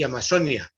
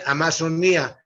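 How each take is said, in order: First: The stress falls on the syllable 'zo'. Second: The stress falls on the syllable 'ni'. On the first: This is how it is said here in Colombia. "mire cómo lo pronuncio" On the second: This is how it is said in Portuguese. "La gente dice Amazonía y así es como se dice en portugués"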